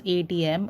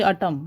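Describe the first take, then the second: First: "A T M" said letter by letter; name each letter in "A T M"; spelled out. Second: ATM run together as "atom"; read as a word. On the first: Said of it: "you say it as". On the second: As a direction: say "atom" as one word, not letters. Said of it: "You don't say atom". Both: Shown as a demonstration.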